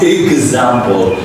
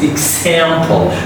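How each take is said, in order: First: The x is said with a g sound. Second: The x is said with a k sound. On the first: The speaker calls it wrong. "It's not example, not like an ax" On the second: The speaker calls it right. "X here is a k sound"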